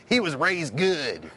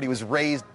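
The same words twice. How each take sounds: First: Slow emphasis on "he was raised good"; drawn-out emphasis. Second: Said in the usual way. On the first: Real, not acted. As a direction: stretch "he was raised good" slowly, leaning on "he".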